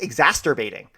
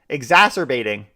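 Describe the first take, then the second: First: The word is said with an added t sound. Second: The word is said without any t sound. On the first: The speaker calls it wrong. "I always say exacerbating. Wow, I've been saying that wrong" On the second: The speaker calls it right. "There's no T in there"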